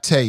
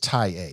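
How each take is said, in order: First: The name is said as one syllable. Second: The name is said as two syllables. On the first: The speaker calls it wrong. "It's not Tay" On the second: The speaker calls it right. "it's Ty A"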